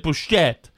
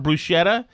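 First: The word is said with Italian pronunciation. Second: The word is said with American pronunciation. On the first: "My brother actually sometimes tries to say bruschetta" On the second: "for bruschetta"

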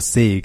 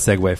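First: It is said in one syllable, rhyming with league. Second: It is said as 'seg-way', in two syllables. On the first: The speaker calls it wrong. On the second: The speaker calls it right.

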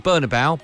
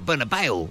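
First: The name is said in a plain English way. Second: The name is said with a put-on foreign accent. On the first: The speaker calls it right. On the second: The speaker calls it wrong.

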